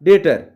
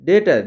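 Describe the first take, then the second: No difference in how they are said.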